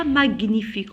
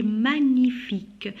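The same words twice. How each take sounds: First: "magnifique" misread as mag-nifique; "magnifique" with a hard g; wrong hard g. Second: "magnifique" with g not sounded; correct gn sound. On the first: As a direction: sound the g before n in "magnifique". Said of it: "On dit pas magnifique". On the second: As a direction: say "magnifique" as ma-nyi-fique. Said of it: "on dit magnifique". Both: Shown as a demonstration.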